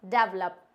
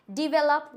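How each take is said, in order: First: Develop as "dev-lup", slowly; slow wrong pronunciation. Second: Develop as "di-vel-up", slow, higher and louder; slow correct pronunciation. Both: Shown as a demonstration. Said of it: "not develop".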